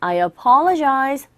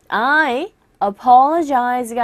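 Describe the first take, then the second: First: "I apologize" run together with a weak "a"; slow "I apologize", first vowel melting into I; linked as one chunk. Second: "I" separate, then apologize with a full first vowel; unlinked words. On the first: Teacher modelling word linking, "I apologize" in one chunk. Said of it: "앞에 있는 단어랑 덩어리로 발음을". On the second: Teacher showing learners what to avoid, unlinked "I apologize". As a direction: keep I and apologize apart. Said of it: "덩어리로 발음을 해주셔야 됩니다". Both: Shown as a demonstration.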